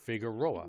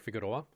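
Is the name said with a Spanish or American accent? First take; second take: American; Spanish. First: It is said with a plain American accent. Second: It is said with a Spanish-style accent.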